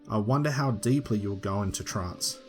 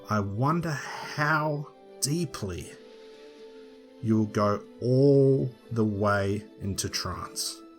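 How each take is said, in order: First: Words are said at normal length. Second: Some words are emphasized and stretched out.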